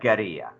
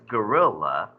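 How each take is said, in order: First: It is said with Spanish sounds, like guerra. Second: It is said like the English animal word. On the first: The speaker calls it right. "how would you pronounce that if that was a Spanish word?" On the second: The speaker calls it wrong. "we mispronounce this as gorilla"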